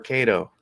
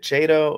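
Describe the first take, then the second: First: The word begins with a hard k sound. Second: The word begins with a ch sound. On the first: "pronounced with a hard K sound" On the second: "rather than the ch sound like in cheese"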